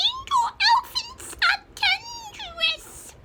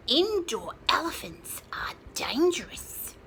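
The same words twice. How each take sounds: First: Very high squeaky chick voice; tiny chick squawking a warning. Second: Whispery chick. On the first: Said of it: "let me do that voice again". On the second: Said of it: "squawked the smallest chicken". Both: Acted.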